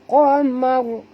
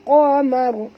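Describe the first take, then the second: No difference in how they are said.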